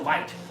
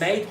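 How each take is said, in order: First: It is said in an Australian accent. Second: It is said in a plain American accent. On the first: The speaker calls it right. "say mate" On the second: The speaker calls it wrong. "instead of saying mate"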